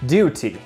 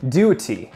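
No difference in how they are said.

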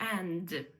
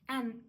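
First: The word ends with a clear d sound. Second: The word ends without a d sound. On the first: "Ми всі знаємо його як and" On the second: "Він вимовляється без д"

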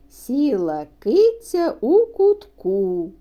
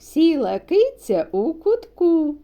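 First: The line is spoken slowly. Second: The line is spoken very fast. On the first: "Перший раз промовляємо повільно" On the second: "а спробуємо ще швидше"

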